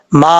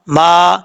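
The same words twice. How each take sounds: First: ما stretched long, ending on a hamza catch; correct madd with hamza. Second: ما said short, no hamza and no madd; wrong short reading. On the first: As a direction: hold ما for three alifs, then close on the hamza. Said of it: "اس طریقے سے پڑھنا ہے". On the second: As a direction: clip ما short and drop the hamza. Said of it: "یہ غلط ہے". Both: Shown as a demonstration.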